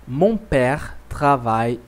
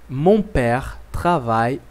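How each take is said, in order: The two takes are said the same way.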